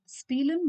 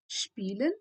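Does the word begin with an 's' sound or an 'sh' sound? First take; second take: s; sh. First: The word begins with a plain 's' sound. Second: The word begins with an 'sh' sound. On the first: The speaker calls it wrong. "I don't pronounce it as spielen" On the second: The speaker calls it right. "but then spielen"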